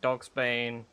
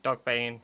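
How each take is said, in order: First: An s sound comes before 'bane'. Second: No s sound comes before 'bane'. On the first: The speaker calls it wrong. "Sorry, Dogbane. Why is there no S?" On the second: The speaker calls it right.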